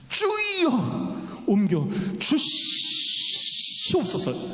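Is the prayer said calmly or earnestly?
earnestly. The prayer is said in a pleading, earnest way.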